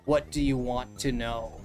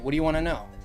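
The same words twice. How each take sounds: First: The phrase is said slowly and carefully. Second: The phrase is said fast and run together. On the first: The speaker calls it wrong. "you don't say" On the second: The speaker calls it right. "you kind of say things like fast"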